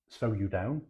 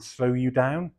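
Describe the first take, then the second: First: Lightly put-on Norfolk drawl on slow you down; a hint of Norfolk on slow you down; bad Norfolk accent. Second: Mock Norfolk accent. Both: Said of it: "which I have to say in a really bad accent".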